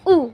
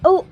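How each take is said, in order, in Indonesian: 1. Vokal tinggi, dengan gigi rapat. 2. Vokal madya, dengan gigi sedikit renggang. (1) "U tinggi, bawah belakang itu giginya rapat" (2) "U madya"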